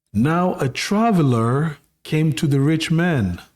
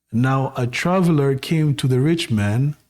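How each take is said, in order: No difference in how they are said.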